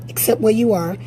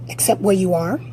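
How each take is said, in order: Both takes have the same delivery.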